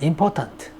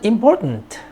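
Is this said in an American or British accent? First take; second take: British; American. First: It is said in a British accent. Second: It is said in an American accent. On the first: "영국에서는" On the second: "미국에서는"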